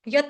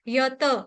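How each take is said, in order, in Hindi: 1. अंतिम t के बाद कोई स्वर नहीं है। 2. अंतिम t में पूरा स्वर है। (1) "यत नहीं बोलेगा कोई भी" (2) "त पूरा है"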